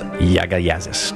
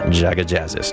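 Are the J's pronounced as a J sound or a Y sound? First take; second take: Y sound; J sound. First: The J's are pronounced like a Y. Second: The J's are pronounced like a J.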